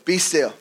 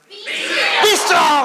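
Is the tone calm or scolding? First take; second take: calm; scolding. First: It is said in a calm, plain tone. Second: It is said like an exasperated scolding parent.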